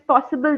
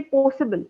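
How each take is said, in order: First: Said in the usual way. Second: "possible" said as "poh-sible", with a tight, closed o; contracted o. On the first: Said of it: "And sometimes possible". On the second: Shown as a demonstration. Trainer showing students' mistake, "possible" with a contracted, closed o. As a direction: narrow the first vowel of "possible" to "oh". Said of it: "That o is a little contracted".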